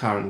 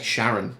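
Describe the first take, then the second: First: The name begins with a hard k sound. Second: The name begins with a soft sh sound. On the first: The speaker calls it right. "It's a hard sound" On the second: The speaker calls it wrong. "it sounds like [name] calling his wife"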